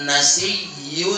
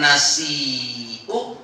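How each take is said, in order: First: The middle sound is a doubled y. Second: The middle sound is a glottal stop. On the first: "dengan ya yang bertasdid yang ropa" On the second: "hamzah itu dibaca ibdal menjadi apa?"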